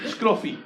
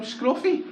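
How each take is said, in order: First: "Scruffy" repeated higher, offended; indignant echo. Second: "Scruffy" shot up very high; mock shrill call. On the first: Retold or imitated. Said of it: "you scruffy bastard". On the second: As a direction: fling "Scruffy" back at him, high. Calling the beggar scruffy back.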